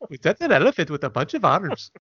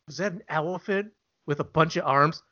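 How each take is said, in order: First: It is said in a put-on foreign accent. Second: It is said in the speaker's plain accent. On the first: "You did it anyway" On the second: "You should have said that with an accent"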